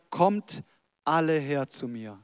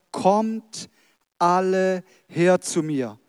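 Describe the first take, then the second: First: Said in the usual way. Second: "Kommt" set apart, "alle her zu mir" slow and drawn out; emphatic invitation. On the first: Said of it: "er sagt". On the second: Acted. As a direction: stretch "alle" wide to include everyone. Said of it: "nicht irgendeine Gruppe von Menschen ausklammert". (einladend, "alle" gedehnt und betont)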